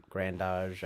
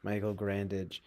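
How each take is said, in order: First: Grandage ending in a French-style "ahzh"; alternative pronunciation. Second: Grandage ending in "-idge"; anglicized pronunciation. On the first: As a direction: say Grandage as "gran-DAHZH". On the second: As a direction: say Grandage as "GRAN-didge". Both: Shown as a demonstration. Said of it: "I don't know".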